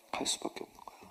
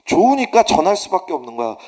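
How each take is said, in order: First: Hushed, breathy aside; whisper. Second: 좋으니까 punched, loud and firm; emphatic. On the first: Preacher confiding the point to the congregation in a whisper. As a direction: drop to a near whisper. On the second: Preacher driving the point home to the congregation, emphatic. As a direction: hit 좋으니까 hard. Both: Real, not acted.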